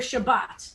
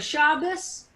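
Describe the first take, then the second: First: It ends with a t sound. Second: It ends with an s sound.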